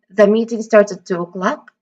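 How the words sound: The pitch rises at the end. It asks a question, seeking information. "if that intonation were to rise on a clock"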